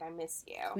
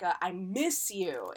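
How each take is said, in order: First: It is said plainly, without extra emphasis. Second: It is said with strong, urgent emphasis. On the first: The feeling is stated simply. "instead of just, like" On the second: The feeling is urgent and strongly emphasized. "it makes the emphasis so much stronger"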